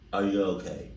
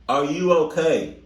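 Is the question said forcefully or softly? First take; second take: softly; forcefully. First: The question is said softly and timidly. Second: The question is said firmly with extra force. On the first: The speaker calls it wrong. "so you're not saying" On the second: The speaker calls it right. "you got like a little off in your voice ... but you're not yelling"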